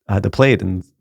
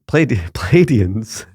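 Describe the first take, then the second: First: "Pleiadians" said as two quick syllables, PLAY-denz; "Pleiadians" clipped short to PLAY-denz, the middle swallowed; mispronounced. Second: "Pleiadians" tried again slowly, PLAY-ad- then full play-AY-dee-ans, with a laugh; fumbling the word. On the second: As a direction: restart "Pleiadians" carefully, syllable by syllable, laughing. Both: Real, not acted. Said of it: "I can't even say it".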